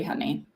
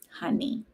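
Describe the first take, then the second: First: Said in the usual way. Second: High breathless whispered "Honey."; mock her own "Honey." in a high whisper; mocking herself. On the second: Shown as a demonstration. Mocking her own call to the dog, "Honey." whispered high. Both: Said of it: "I'm making fun of myself here".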